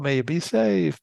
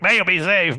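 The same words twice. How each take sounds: First: It is said gently and sympathetically. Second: It is said harshly and aggressively.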